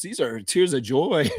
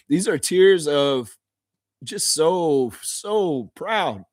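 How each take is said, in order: First: Said in the usual way. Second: Laughing through tears. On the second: Real, not acted. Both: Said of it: "This isn't sad tears".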